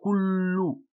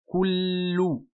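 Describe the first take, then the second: First: The lips do not re-round for the second vowel. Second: The lips round, relax, then round again. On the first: The speaker calls it wrong. "et pas kullu" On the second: The speaker calls it right. "Ça donne kullu"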